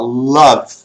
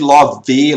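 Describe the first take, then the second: First: The word ends sharply on the consonant. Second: An extra vowel sound ends the word. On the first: The speaker calls it right. "Você para aqui na consoante" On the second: The speaker calls it wrong. "Nada de love, love, não"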